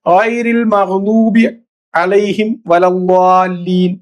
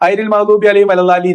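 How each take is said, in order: First: The Arabic letters are articulated precisely. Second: The Arabic letters are articulated loosely. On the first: The speaker calls it right. "എന്നൊക്കെ ഓതണം" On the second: The speaker calls it wrong. "ഓലെങ്ങനെ പറയാ"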